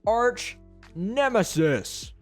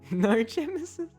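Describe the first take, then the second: First: The n sound starts the second word. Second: The n sound starts the first word. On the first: The speaker calls it right. "I said it correctly" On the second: The speaker calls it wrong. "Why did I just pronounce that word narch?"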